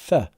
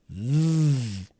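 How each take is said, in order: First: The th sound is unvoiced, without voice. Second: The th sound is voiced, with voice. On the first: "That's the unvoiced T H" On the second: "But this time we use voice"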